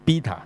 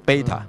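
First: The first vowel is said like the letter E. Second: The first vowel is said like the letter A. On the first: The speaker calls it wrong. "其實好多人都讀錯，因為佢照拼啊嘛" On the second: The speaker calls it right. "個E 字讀A 音嘅"

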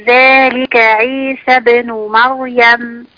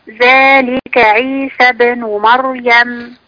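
The two takes are said the same way.

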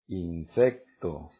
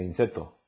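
First: A k sound is heard before the t. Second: No k sound is heard before the t. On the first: The speaker calls it right. "la palabra insecto lleva las letras CT" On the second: The speaker calls it wrong. "ustedes no tienen la C. No sé si se diga inseto"

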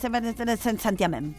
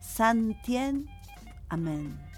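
First: The parts run together without any pause. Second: A short pause separates the two parts. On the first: Worshippers rushed the words into one. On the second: The original Latin words were kept separate.

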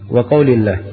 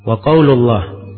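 First: The vowel after qaul is i. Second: The vowel after qaul is u. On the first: The preceding word is read without nunation. "Kalau tidak ditanwin babus salati berarti apa?" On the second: The preceding word is read with nunation. "Kalau di tanwin babun berarti apa?"

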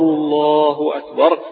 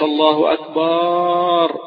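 First: The last syllable has a short, natural vowel. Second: The last syllable has an overly stretched vowel. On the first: The speaker calls it right. "بهذا المد الطبيعي" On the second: The speaker calls it wrong. "ما تقولش الله أكبر زي ما نسمع بعض الجهل"

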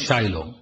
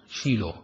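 First: The first vowel sounds like 'eye'. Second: The first vowel sounds like 'ee'. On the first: This is the English pronunciation. "بالإنجليزي يقولون شايلو" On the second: This is the Hebrew pronunciation. "لفظها بالعبري هو شيلو"

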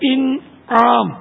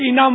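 First: The word is said with careful full articulation. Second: The word is said in a casual everyday way. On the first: This is the proper pronunciation of the word. The speaker calls it right. "صحیح تلفظ ہے" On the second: This is how it is said in everyday speech. The speaker calls it wrong. "Urdu بول چال میں تو انعام ہم بول دیتے ہیں"

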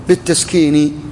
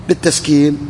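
No difference in how they are said.

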